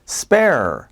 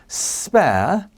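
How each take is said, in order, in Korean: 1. 미국식 억양으로 발음됩니다. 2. 영국식 억양으로 발음됩니다. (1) "spare 하면 이제 미국식이에요" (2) "영국식 영어의 어떤 독특한 발음"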